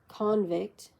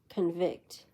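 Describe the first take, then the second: First: The stress is on the first syllable. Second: The stress is on the second syllable. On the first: It is used as a noun. "noun convict" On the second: It is used as a verb. "verb convict"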